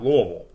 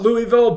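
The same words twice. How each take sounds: First: The name is mumbled, thick and swallowed together. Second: The name is said crisply with every syllable clear. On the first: This is how the real broadcasters say it. "like a dog with peanut butter on the roof of his mouth" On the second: This is how the speaker himself says it. "I call it Louisville"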